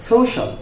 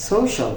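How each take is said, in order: The two takes are said the same way.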